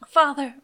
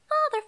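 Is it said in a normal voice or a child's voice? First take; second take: normal voice; child's voice. First: It is said in the speaker's normal voice. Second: It is said in a little kid's voice.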